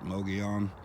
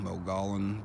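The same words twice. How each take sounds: First: The double L is sounded like a Y. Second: The double L is sounded as a clear L. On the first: It is said the way locals say it. The speaker calls it right. "but they pronounce it Mogollon" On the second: It is read the way it is spelled. The speaker calls it wrong. "They spell it M O G O L L O N"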